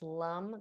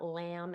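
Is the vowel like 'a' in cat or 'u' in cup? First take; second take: cup vowel; cat vowel. First: The vowel sounds like the 'u' in cup. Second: The vowel sounds like the 'a' in cat. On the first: The speaker calls it right. "it's lum" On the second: The speaker calls it wrong. "it's not lamb"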